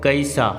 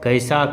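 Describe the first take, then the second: No difference in how they are said.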